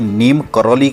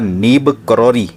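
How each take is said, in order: First: The name is said with m and l sounds. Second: The name is said with b and r sounds. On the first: The speaker calls it wrong. "गलत उच्चारण कर रहे हैं" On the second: The speaker calls it right. "असली नाम है, सही नाम है"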